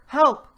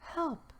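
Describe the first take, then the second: First: It is said loudly. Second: It is said quietly.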